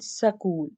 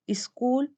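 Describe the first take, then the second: First: School split as sa-kool; epenthetic A. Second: School with a vowel in front, is-kool; epenthetic E. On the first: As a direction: put an A between S and K in school. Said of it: "that is a sound". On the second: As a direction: add an E before the S in School. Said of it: "epenthetic vowel". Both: Shown as a demonstration.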